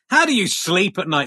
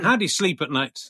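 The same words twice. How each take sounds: First: The question is asked aggressively. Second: The question is asked gently.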